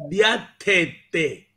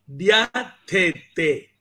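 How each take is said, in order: No difference in how they are said.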